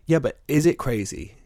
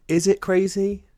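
First: Said in the usual way. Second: Incredulous. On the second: Acted. Repeats with high incredulity.

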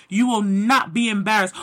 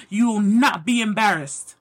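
Both takes have the same delivery.

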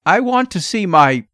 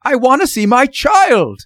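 First: Higher, tense request cut short; tense father's unfinished plea; anxious demand. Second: High, loud desperate demand; almost shriek it in desperation; father at the end of his nerves, shrill and loud; near shriek. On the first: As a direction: press anxiously, breaking off mid-sentence. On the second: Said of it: "Mister Button almost shrieked". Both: A narrator's reading.

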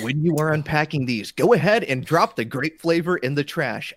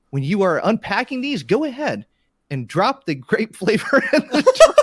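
First: Straight-faced trailer narration, steady; composed movie trailer voice. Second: Breaking into laughter reading; can't keep a straight face; cracking up mid-read. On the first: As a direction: read it deadpan like a trailer. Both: Pretend. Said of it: "Let me try this again".

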